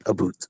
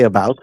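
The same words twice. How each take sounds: First: "a boot" as about with an oo vowel; regional Canadian pronunciation. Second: "about" with the ow diphthong; speaker's own pronunciation. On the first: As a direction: make "a boot" rhyme with hoot. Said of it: "you'll get a boot". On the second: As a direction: say "about" to rhyme with out. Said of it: "I say about". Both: Shown as a demonstration.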